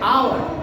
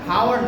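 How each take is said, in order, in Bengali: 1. শব্দটি স্বরধ্বনি দিয়ে শুরু হয়। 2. শব্দটি h ধ্বনি দিয়ে শুরু হয়।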